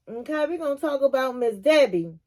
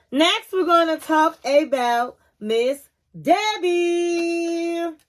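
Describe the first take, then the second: First: Said in the usual way. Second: Slow, higher announcing of the next topic; slow drawn-out announcement. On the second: Shown as a demonstration. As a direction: stretch out every word like a show host.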